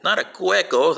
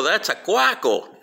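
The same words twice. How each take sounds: First: "cueco" said higher, with an E sound; wrong word CUECO. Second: "cuaco" said slowly and higher, with an A sound; slow, corrective "cuaco"; correct word CUACO. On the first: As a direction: set "cueco" apart as the mistake. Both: Retold or imitated.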